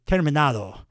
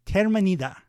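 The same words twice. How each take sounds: First: "terminado" with a clear ah before the final do; corrected Spanish pronunciation. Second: "terminida" with an ee in place of ah, higher; botched Spanish pronunciation. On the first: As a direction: say "terminado" Spanish-style, stress on NA. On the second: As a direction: stumble on "terminida", stressed near the end with an ee. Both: Real, not acted. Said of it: "I got it now".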